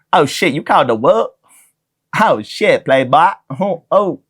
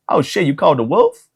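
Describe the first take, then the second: First: Hammed-up tough-guy movie voice, pitched up; a bad, over-the-top imitation of a movie badass; Samuel L. Jackson impression. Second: Samuel L. Jackson. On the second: Retold or imitated. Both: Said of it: "the most racist Samuel L. Jackson impression".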